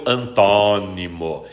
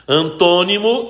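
First: ANTÓNIMO with a wide open o, slow, low and falling. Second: ANTÔNIMO with a closed o, higher and rising. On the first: Teacher reading the second spelling, antônimo with open O. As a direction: drag antônimo out low, opening the stressed O. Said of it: "a segunda com acento agudo". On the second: Teacher reading out the hyphenated pair, antônimo with closed O. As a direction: say antônimo with a rounded, closed stressed O. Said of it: "A primeira com acento circunflexo". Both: Shown as a demonstration.

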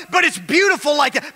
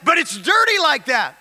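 First: Preaching shout. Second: Said in the usual way. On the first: Acted. Preacher telling the church anointing is beautiful, ringing shout. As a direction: lift the word beautiful up like a cry of praise.

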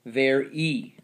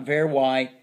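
First: "ver E", ending in ee; long E ending. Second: "ver Y", ending in why; wrong Y sound. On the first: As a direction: correct it to "ver E" in two beats. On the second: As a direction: misread very as "ver Y". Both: Shown as a demonstration. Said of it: "not ver Y".

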